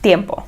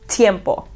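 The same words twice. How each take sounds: First: The T is soft, tongue against the palate. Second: The T is hard, with a strong puff. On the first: The speaker calls it right. "you put your tongue on the roof of your mouth, and you go ta" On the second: The speaker calls it wrong. "You don't go tiempo"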